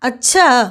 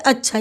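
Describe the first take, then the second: First: The word is drawn out very long. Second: The word is short, with very little force. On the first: It signals a threat of revenge. "प्लुत के तौर पे कहेंगे" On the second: It signals acceptance or agreement. "ह्रस्व यानी कि बहुत कम बल दे करके"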